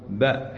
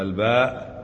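First: "باء" cut to the bare sound ba; wrong bare-sound reading. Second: "الباء" as the full name, long baa; letter by name. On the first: Teacher warning students off, bare-sound "باء". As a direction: say "باء" as a short syllable, no article. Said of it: "ما تقول باء حرف جر". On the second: Teacher correcting students, letter named in full "الباء". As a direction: draw out the vowel of "الباء". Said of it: "لا، تقول الباء". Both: Shown as a demonstration.

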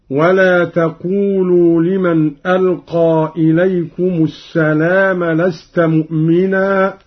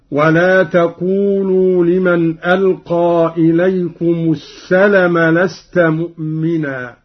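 First: Said in the usual way. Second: السلم said with a short vowel, no long a; short lam in السلم. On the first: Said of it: "قوله تعالى". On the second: Shown as a demonstration. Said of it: "قرأ قالون بقصر اللام هكذا".

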